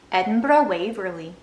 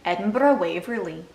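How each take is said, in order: First: Put-on second try at Scottish accent. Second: Mock Scottish train announcer. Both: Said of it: "I really can't fake a Scottish accent".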